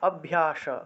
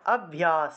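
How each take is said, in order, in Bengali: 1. শব্দটি sh উচ্চারণে শেষ হয়। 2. শব্দটি s উচ্চারণে শেষ হয়। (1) "যদি তালবস্য থাকতো তাহলে স উচ্চারণ হতো" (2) "আমরা দন্তস্ব আছে বিধায় স উচ্চারণ করব"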